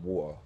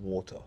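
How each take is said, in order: First: Water is said in a relaxed, careless way. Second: Water is said carefully, in a posh way. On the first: The speaker is among friends and not trying. "when I'm lazy" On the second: The speaker is addressing people formally. "around like people that I need to address properly"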